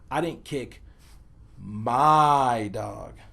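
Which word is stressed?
my. The word my carries the emphasis. A different dog was kicked. "place the emphasis on the word my"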